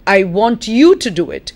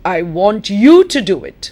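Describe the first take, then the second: First: The stress falls on the word you. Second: The stress falls on the word you.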